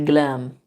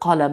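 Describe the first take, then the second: First: It begins with a g sound, Libyan style. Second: It begins with a deep q sound.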